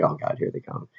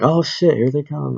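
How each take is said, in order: First: Quiet, barely voiced mock dread; retold hushed dread. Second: High-pitched "oh shit" reaction; retold mock alarm. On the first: Reacting to the fire truck coming, hushed mock dread. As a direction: say it under the breath, as if dreading them. Second take of siren reaction. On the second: Reacting to the fire truck coming, mock alarm.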